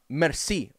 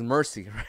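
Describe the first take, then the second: First: It is said with a French pronunciation. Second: It is said with an English pronunciation. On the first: It means thank you. "Merci, or thank you" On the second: It means showing mercy. "you could read it as Mercy"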